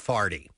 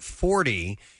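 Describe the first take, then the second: First: The first vowel is an 'ar' sound. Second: The first vowel is an 'or' sound. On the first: "the very strong St. Louis accent" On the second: "the word 40 is pronounced as"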